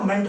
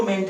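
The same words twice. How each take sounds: First: "मेंट" with a weak schwa, like "munt"; "मेंट" said as an unstressed "mənt"; reduced suffix vowel. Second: "मेंट" with a full, clear e as in "men"; "मेंट" pronounced like the word "meant"; standalone full vowel. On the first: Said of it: "शब्द के साथ जुड़ जाता है". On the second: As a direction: say "मेंट" as spelt, with an open e. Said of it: "तो मेंट हो जाता है". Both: Shown as a demonstration.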